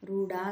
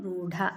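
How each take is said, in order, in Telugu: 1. చివరి అచ్చు దీర్ఘం. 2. చివరి అచ్చు హ్రస్వం. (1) "రూఢ కాదు" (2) "డాకు దీర్ఘం లేదు"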